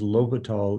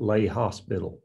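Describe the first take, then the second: First: It is said without any s sound. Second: It is said with an s sound, like hospital. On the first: The speaker calls it right. "it is L'Hopital" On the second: The speaker calls it wrong. "It is not lay hospital"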